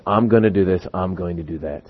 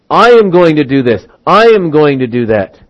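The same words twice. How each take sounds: First: Low, soft, self-satisfied murmur; self-assured person. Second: "I am" punched at the start of each sentence; self-assertion. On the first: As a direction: drop right down, trailing softer. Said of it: "listen to the way this person is talking". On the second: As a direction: lean hard on "I am" as a boast. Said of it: "we have self-might". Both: Acted.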